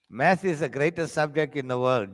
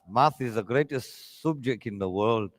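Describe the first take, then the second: First: It is said in his ordinary accent. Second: It is said in a put-on Jamaican accent.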